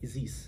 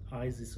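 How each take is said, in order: First: The name is said the Egyptian way. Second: The name is said the usual English way. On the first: The speaker calls it right. "we have our own pronunciation to it, so we say Isis" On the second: The speaker calls it wrong. "it's not Isis or whatever"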